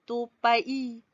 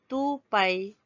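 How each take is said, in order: First: The two vowels are split into separate syllables. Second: The two vowels glide together in one syllable. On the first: The speaker calls it wrong. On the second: The speaker calls it right.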